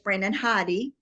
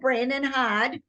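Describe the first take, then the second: First: The surname is said with two syllables. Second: The surname is said with one syllable. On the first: The speaker calls it right. "it's Brandon Hoddy" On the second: The speaker calls it wrong. "I was saying it wrong"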